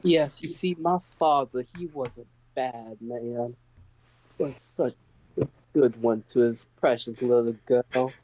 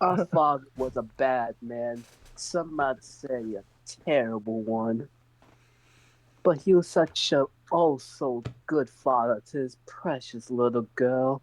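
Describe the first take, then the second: First: Put-on southern accent. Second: Put-on the daughter plays up her Southern accent about her daddy. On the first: The daughter telling Mammon about her bad father, sliding into a faint Southern accent. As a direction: let a faint Southern accent slip into the noblewoman's lines. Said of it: "I love the natural slipping into the southern accent". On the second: Repeating her line for the table, now in a deliberate Southern accent. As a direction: lean into the Southern accent on purpose, a touch hammed-up. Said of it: "you slipped into a southern accent".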